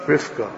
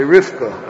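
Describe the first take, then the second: First: "Rivka." with a careful, voiced v; Rivka with a clear v. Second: "Rivka" said as "Rifka", v turned to f; lazy "Rivka" with f instead of v. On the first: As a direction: take care to voice the v in "Rivka.". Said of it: "It takes work to say Rivka". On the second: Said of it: "as if there's a fey there". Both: Shown as a demonstration.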